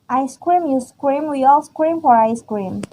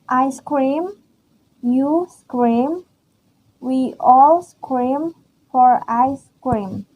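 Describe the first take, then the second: First: It is read fast. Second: It is read slowly.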